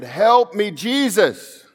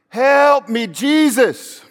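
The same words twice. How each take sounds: First: Higher pleading call, not yet at full volume; raised plea, first of two; imitated cry for help. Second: Much higher, louder desperate shout; full desperate plea, the louder take; louder cry for help. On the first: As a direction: cry out to Jesus from a hospital bed. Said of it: "And they got louder and louder". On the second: Retold or imitated. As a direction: scream for Jesus with everything left. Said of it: "Louder and louder".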